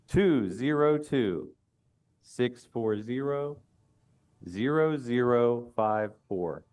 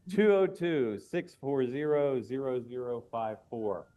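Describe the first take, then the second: First: The number is said slowly. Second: The number is said fast.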